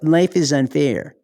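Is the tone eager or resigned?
resigned. It is said with a resigned, deflated tone. Unfairness is a reason to give up. The speaker calls it wrong.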